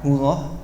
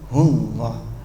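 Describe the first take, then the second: First: The l sound is light, without pressure. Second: The l sound is pressed hard, with emphasis. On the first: The speaker calls it wrong. "Bukan hullah" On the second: The speaker calls it right. "Ada tekanan di lamnya"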